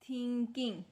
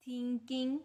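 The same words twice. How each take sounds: The two takes are said the same way.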